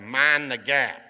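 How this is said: It is said in a Southern US accent.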